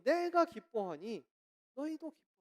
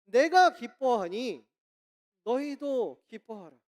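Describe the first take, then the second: First: Wronged apostle in prison. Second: Loud, slow, weighty proclamation; booming quoted command from Paul; proclaiming apostle. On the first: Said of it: "억울하게 감옥 간 바울이". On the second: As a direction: declare it forcefully, drawing out each phrase. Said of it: "바울이 뭐라고 이야기를 하냐면요". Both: Retold or imitated.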